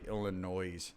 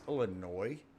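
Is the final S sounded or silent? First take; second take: sounded; silent. First: The final S is sounded. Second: The final S is silent. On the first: The speaker calls it wrong. "So annoying when people say Illinois" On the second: The speaker calls it right. "Don't they know it's a silent S?"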